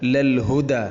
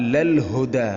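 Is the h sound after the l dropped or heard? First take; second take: heard; heard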